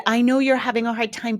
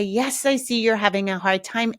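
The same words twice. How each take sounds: First: Quick, pressured mock validation with stress on you're; rushing past the kid's feelings to your own; oversharing parent. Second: Put-on even, accepting acknowledgment of the child's feelings; calm validation. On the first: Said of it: "They're oversharing their process". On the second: Shown as a demonstration. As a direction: validate calmly and move on. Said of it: "You can say".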